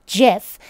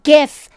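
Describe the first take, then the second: First: Gif said jif, soft J like the peanut butter. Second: Gif with a hard G, like gift. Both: Shown as a demonstration. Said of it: "Not gif, gif".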